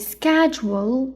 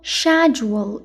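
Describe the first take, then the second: First: It is said in an American accent. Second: It is said in a British accent.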